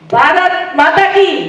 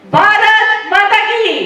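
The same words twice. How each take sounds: First: It is said somewhat louder. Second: It is said very loudly and forcefully. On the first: "બીજી વખત હું એનાથી થોડું મોટેથી બોલી" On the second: "ત્રીજી વખત મેં જેટલું જોરથી કીધું"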